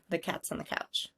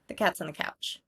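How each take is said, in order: First: The small words are reduced to a schwa. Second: The same.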